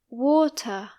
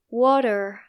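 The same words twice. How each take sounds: First: The T is clear and strong. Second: The T is soft and flapped.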